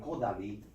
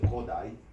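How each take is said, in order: First: The name is said with Hungarian pronunciation. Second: The name is said with American English pronunciation. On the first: "which is the actual Hungarian pronunciation" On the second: "we pronounce it Kodály, which is okay"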